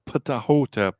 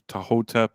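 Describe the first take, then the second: First: The word starts with an audible P sound. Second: The word starts without a P sound. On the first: "I think that the P needs to do something" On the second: "Tex Rogers said it's pronounced"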